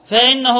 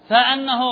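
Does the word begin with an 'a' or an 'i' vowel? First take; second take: i; a. First: The first vowel is 'i' (fa-innahu). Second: The first vowel is 'a' (fa-annahu). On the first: "فإن كسرنا الهمزة كما في القراءة الأخرى" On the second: "وإذا فتحنا الهمزة كما في قراءتنا"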